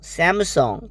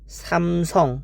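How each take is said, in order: First: It is pronounced the way English speakers say it. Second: It is pronounced the way Korean speakers say it. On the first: "English people all or say will say Samsung" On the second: "we called it Samsung. This is Korean"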